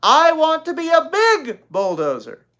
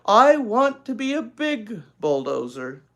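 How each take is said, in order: First: High, loud, sing-song bulldozer line; child showing the line. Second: Loud, slow, grudging reading; cross. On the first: Little girl showing her sister how to read it. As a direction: demonstrate the line with big gusto. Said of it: "You're supposed to say". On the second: Older sister crossly reading to her sister. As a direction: read it reluctantly, annoyed. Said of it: "said Beezus crossly". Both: Acted.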